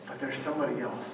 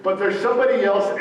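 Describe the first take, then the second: First: Soft, fast, muttered to himself; quiet realization. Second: Higher and louder, a little faster; telling her outright. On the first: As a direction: let it slip out under his breath. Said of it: "And then he remembers". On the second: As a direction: announce it firmly to Ruth. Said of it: "he's telling Ruth". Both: Retold or imitated.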